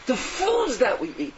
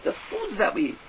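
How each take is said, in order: First: The foods that we eat drawn out slowly, foods weighted; slow and deliberate on foods; slow emphasis. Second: Said in the usual way. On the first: Shown as a demonstration. Preacher to listeners, slowly stressing foods.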